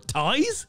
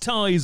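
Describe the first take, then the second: First: It is said as a puzzled question. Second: It is said as a confident exclamation. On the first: Surprise that the answer is ties. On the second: Obviously the answer is ties.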